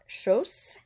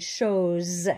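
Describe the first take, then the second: First: The middle consonant is a hissing S sound. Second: The middle consonant is a buzzing Z sound. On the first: The speaker calls it wrong. "so it's not chose" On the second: The speaker calls it right. "with a Z, Z sound"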